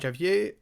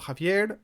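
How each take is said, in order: First: The name is said with English sounds. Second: The name is said with Spanish sounds.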